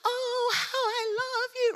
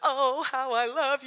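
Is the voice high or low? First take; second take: high; low. First: It is said in a high voice. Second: It is said in a lower voice.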